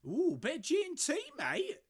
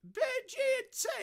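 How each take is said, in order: First: Mock fancy voice. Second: Very high squeaky toff voice, even more hammed-up; over-the-top mock fancy voice. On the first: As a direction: relish the G and T like a pretend toff. Savouring a gin in a mock voice. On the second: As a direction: push the pretend toff to a squeal.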